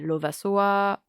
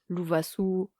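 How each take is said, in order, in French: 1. Le nom se dit avec des sons de voyelles françaises. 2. Le nom se dit avec des sons de voyelles malgaches. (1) "en entier c'est Lovasoa" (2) "en malgache"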